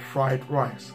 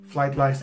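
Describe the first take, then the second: First: The words are said with clear R sounds. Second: The R sounds are replaced with L sounds. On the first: The speaker calls it right. "instead of" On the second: The speaker calls it wrong. "replace it with R. In that sense, and vice versa"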